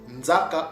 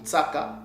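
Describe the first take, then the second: First: The middle consonant is a voiced z sound. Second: The middle consonant is a voiceless s sound. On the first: "soit le son du Z" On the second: "ou S"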